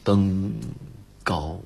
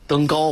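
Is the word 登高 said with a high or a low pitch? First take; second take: low; high. First: The word is said long and with low pitch. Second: The word is said with a high, rising pitch. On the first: This is the ancient way, suiting an unhappy event. "他得规定你要读长，登高，但是要低" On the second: This is the modern way of reading it. "要往高了说"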